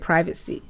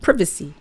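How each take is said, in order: First: It is said the American way. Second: It is said the British way.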